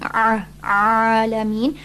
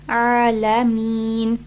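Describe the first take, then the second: First: The opening throat sound is strained and forced. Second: The opening throat sound is relaxed and easy. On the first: The speaker calls it wrong. "you don't want to exert yourself by saying" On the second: The speaker calls it right. "Just Alameen"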